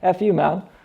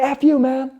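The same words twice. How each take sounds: First: It sounds light and playful, like a joke. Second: It sounds hostile and angry, like an insult. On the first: It is friendly teasing. "I could be joking around with my friends" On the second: It is a real insult. "some guy cuts me off"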